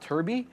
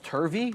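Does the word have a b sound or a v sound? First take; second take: b sound; v sound. First: The word is said with a b sound. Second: The word is said with a v sound. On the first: The speaker calls it wrong. "not turby" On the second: The speaker calls it right. "it's turvy"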